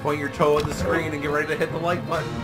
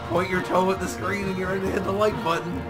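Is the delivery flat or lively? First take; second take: flat; lively. First: It is said plainly, with little inflection. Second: It is said with more inflection and energy. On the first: "I'll say something" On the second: "then I'll say it with more inflection"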